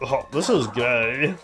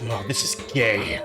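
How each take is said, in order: First: It is said in a light, joking tone. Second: It is said in a hateful, hostile tone. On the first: It is a harmless joke. The speaker calls it right. "I like it in the way of just being like" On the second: It is meant as a real insult. The speaker calls it wrong. "I wouldn't say it with hate in my heart. I wouldn't be like"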